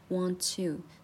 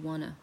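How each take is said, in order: First: The two words are said separately. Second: The two words are run together.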